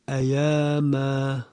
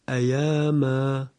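No difference in how they are said.

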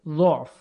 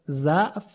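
First: The first vowel is a rounded 'u'. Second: The first vowel is an open 'a'.

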